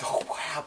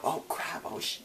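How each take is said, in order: First: Said in the usual way. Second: Whispered. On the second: Retold or imitated. Boy mutters it under breath.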